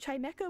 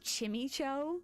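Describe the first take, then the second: First: The first syllable is said like "chime". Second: The first syllable is said like "chimmy". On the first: The speaker calls it right. "It's Chime and Echo" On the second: The speaker calls it wrong. "The people who say Chimicho"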